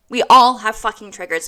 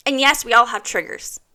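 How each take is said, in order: First: "fucking" punched, whole line louder; emphatic restatement. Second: Said in the usual way. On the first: Shown as a demonstration. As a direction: hit "fucking" hard.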